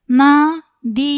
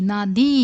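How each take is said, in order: First: Drawn-out, loud first sound, split in two; syllable by syllable. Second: Said in the usual way. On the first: Shown as a demonstration. Teacher sounding out a Hindi word for learners, syllable by syllable. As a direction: sound out the word slowly and loudly.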